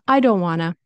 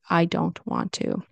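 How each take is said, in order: First: The T is dropped, giving a reduced 'wanna'. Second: The T in 'want to' is fully pronounced.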